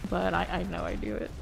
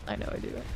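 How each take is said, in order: First: Said in the usual way. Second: Breathy whisper to self; whispered under the breath; whispered aside. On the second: Real, not acted. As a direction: drop to a whisper on the repeat. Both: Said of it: "repeated as whisper".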